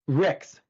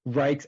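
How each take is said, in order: First: The vowel is a short 'i'. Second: The vowel sounds like 'eye'. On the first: This is the proper form of the name. The speaker calls it right. "like R I C K S" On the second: This is how most people say the name. The speaker calls it wrong. "it's so often wrong"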